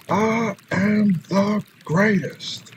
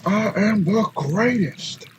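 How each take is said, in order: First: Very slow, drawn-out champion's boast; Muhammad Ali. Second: Slow, higher boxer's boast; Muhammad Ali. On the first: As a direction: stretch every word like a champ at the mic. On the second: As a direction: proclaim it slowly like a champion boxer. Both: Retold or imitated. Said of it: "Muhammad Ali is one of my".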